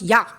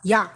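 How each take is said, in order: No difference in how they are said.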